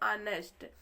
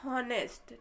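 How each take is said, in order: First: The word starts with a vowel, h silent. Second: The word starts with an audible h sound. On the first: The speaker calls it right. "यहाँ पे जो एच होता है वह silent होता है" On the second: The speaker calls it wrong. "अगर हम इसको देखें तो पढ़ेंगे हॉनेस्ट"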